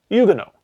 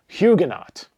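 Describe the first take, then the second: First: The word is pronounced the French way. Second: The word is pronounced the English way. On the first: The speaker calls it right. "they pronounce that word in a French way" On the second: The speaker calls it wrong. "I have always said this word in my head"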